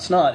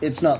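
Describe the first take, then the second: First: The words are slurred together into one syllable. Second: Each word is clearly and separately enunciated. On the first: The speaker calls it wrong. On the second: The speaker calls it right.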